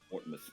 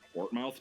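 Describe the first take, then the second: First: The last syllable is a reduced 'muth'. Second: The last syllable is a full 'mouth'. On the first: The speaker calls it right. "it's like everything always has to be like muth" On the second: The speaker calls it wrong. "is it Portmouth? No"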